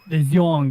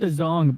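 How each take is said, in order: First: The E vowel is pronounced before the O. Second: The E vowel is silent before the O. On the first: The speaker calls it right. "I feel like it should be the Zhong" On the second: The speaker calls it wrong. "which they call it the Zong"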